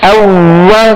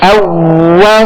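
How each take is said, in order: The two takes are said the same way.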